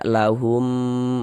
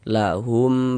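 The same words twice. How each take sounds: First: The final m sound is drawn out long. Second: The final m sound is short and clipped. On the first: The speaker calls it wrong. "jangan dibaca lahum dipanjangkan begitu, jangan, salah" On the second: The speaker calls it right. "baca pendek saja"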